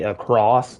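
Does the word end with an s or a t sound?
s sound. It ends with a plain s sound.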